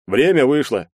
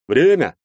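First: Said in the usual way. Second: Loud, high, pressing call; insistent. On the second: A narrator's reading. Policeman repeating that the visit is over, insistent. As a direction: press them firmly to leave. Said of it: "настойчиво повторил полицейский".

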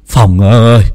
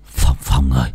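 First: Calling out. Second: Breathless call. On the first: Calls Phong loudly. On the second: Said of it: "thở hồng hộc". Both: Acted.

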